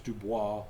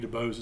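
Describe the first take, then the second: First: The name is said with a French ending. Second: The name is said with an English ending. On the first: "if you want to sound French" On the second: "maybe Dubose is how we pronounce it"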